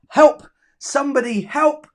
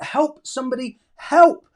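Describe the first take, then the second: First: "Help somebody, help" said high and louder all through; acted cry for help. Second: A plain "Help somebody" then a sudden high, loud "help"; acted cry for help. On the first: Teacher reading a pupil's sentence to the class, called out high and loud. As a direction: call the whole line out loud. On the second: Teacher reading a pupil's sentence to the class, last "help" cried out. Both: Shown as a demonstration. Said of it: "reading pupil's sentence aloud".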